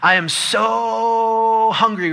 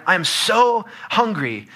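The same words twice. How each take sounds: First: Hugely drawn-out, high, loud "so"; really dramatic. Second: Slow, higher, big stress on "so"; capitalized emphasis. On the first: Husband's dramatic text to his wife, very long, high "so". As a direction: stretch "so" out high, hammed-up. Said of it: "if we want to be really dramatic". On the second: Preacher showing capital letters, heavy stress on "so". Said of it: "We can add capitalization". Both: Shown as a demonstration.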